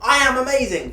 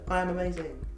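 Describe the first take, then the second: First: It is said loudly with high energy. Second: It is said flatly with little energy.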